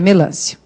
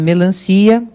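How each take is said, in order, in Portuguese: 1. A tônica fica na sílaba do meio, lan. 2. A tônica fica na última sílaba, ci.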